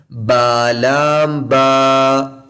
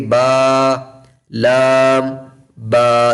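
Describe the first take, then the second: First: Very slow sung बा लाम बा as one unit; chanted joined letters. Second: बा, लाम, बा said apart with a pause before बा; wrong separated reading. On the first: Teacher chanting joined letters slowly for children. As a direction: chant the three letters smoothly together. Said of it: "मैं तीन तीन हरूफ को मिला के पढ़ता हूँ". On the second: Teacher demonstrating the wrong, broken-up reading. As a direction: chop the letters apart. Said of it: "तो ये गलत होगा". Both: Shown as a demonstration.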